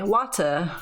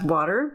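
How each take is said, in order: First: It is said in a British English accent. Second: It is said in an American English accent. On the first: "while a British English speaker might say water" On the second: "An American English speaker might pronounce water as water"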